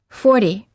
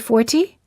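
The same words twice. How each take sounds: First: The T is a quick D-like tap. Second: The T is a clear T sound. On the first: The speaker calls it right. "we say" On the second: The speaker calls it wrong. "We don't say"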